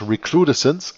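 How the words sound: The word is said with English pronunciation. "But you can also pronounce it in English"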